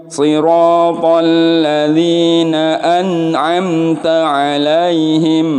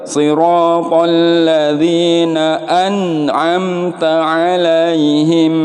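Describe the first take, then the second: No difference in how they are said.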